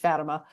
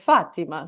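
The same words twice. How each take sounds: First: It is pronounced the American way. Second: It is pronounced the Portuguese way. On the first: This is the common American habit. The speaker calls it wrong. "the common American bastardization is Fatima" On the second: This is how people in Portugal say it. The speaker calls it right. "when I went to Portugal, actually they said Fatima"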